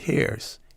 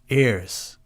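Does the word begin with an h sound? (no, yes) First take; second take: yes; no. First: The word starts with a clear h sound. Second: The word starts with a vowel, no h sound. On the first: The speaker calls it wrong. "not hairs, because that could be quite comical" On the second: The speaker calls it right. "ears, not hairs"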